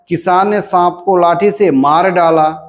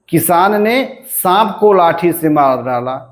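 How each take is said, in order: First: The stress falls on the words मार डाला. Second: The stress falls on the word सांप. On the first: "मार डालने पर बलाघात है" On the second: "सांप पे बलाघात हो गया"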